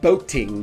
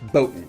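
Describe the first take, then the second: First: The t is pronounced as a crisp t. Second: The t is replaced by a glottal stop.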